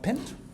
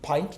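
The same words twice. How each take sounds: First: The vowel sounds like the one in 'mint'. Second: The vowel sounds like the one in 'mine'. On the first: This follows the regular spelling rule. The speaker calls it wrong. "not pint" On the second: This is how the word is actually read. The speaker calls it right. "P I N T is pint"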